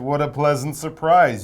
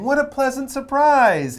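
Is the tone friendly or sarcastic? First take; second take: sarcastic; friendly. First: It sounds slightly sarcastic and teasing. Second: It sounds warm, positive and friendly. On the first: The speaker is teasing her for being absent. "in a slightly sarcastic" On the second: The speaker is simply glad to see her. "in a positive, really friendly way"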